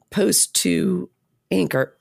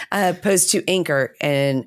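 First: Hoarse, voice giving out; rough, fading voice; losing voice. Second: Said in the usual way. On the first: Real, not acted. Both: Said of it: "I'm losing my voice".

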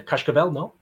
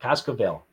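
First: Cascavel with a Portuguese "sh" before the k; Portuguese accent. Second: Cascavel with a plain "s" before the k; corrected pronunciation. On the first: Host trying the team name, unsure, in a Portuguese accent. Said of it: "you say Cascavel in a Portuguese accent". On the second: Host copying the Brazilian guest's correction, Cascavel with a plain "s". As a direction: say Cascavel as "Kass-ka-vel", no "sh". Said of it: "That's it". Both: Real, not acted.

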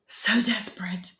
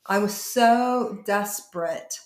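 First: Breathless whisper, barely voiced; a hushed, spent whisper of despair; whispered echo. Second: Said in the usual way. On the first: Real, not acted. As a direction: let the words fall away into a whisper. Whispered echo of own words.

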